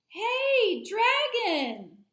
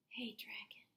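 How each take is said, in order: First: It is shouted very loudly. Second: It is whispered very softly.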